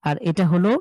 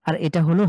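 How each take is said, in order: Both takes have the same delivery.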